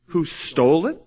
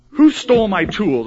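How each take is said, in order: First: Said in the usual way. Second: Mock indignant complaint. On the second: Acted complaint about lost tools.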